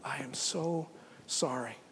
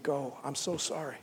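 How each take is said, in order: First: Whispered sorrow. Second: Soft, sorry farewell; tender sorrow. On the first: God whispering his sorrow to Adam and Eve. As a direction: whisper the apology. God tenderly sending them away. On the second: God sending Adam and Eve from the garden, soft and sorry. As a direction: let them go gently, heartbroken. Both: Acted.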